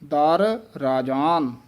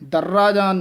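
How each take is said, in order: First: There is a break after 'dar'. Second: The two words run together as one. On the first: The speaker calls it right. "ਦਰ ਵੱਖਰਾ ਬੋਲਣਾ ਹੈ" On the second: The speaker calls it wrong. "ਦਰਰਾਜਾਨ ਨਹੀਂ ਕਹਿ ਦੇਣਾ"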